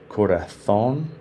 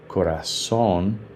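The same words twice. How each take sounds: First: The z is said like English th. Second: The z is said like s.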